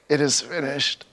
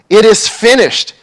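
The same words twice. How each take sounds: First: It is said weakly, as if giving up. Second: It is shouted as a triumphant victory cry.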